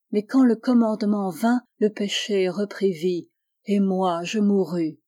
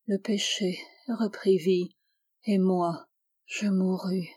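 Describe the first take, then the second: First: Almost crying out. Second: Whispered under the breath, to herself; murmur. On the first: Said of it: "et cria presque ces derniers mots". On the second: Gertrude, eyes closed, repeats the verse to herself in a whisper. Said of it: "ces derniers mots dans un murmure". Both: A narrator's reading.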